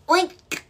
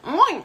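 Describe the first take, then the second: First: It is spoken as a word with a crisp K. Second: It imitates a real pig's grunting sound.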